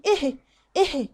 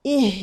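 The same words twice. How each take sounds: First: "إيه" with the h puffed out abruptly; breath let out at once. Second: "إيه" as a clear ih with breath flowing; full kasra. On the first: Teacher shows the wrong haa, abrupt puff. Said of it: "ما اطلعش ال-، النفس مره واحده". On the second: Teacher models hamza and haa, clear and flowing. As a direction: hold the h after a clean i. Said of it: "يبقى نكسرها حلو". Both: Shown as a demonstration.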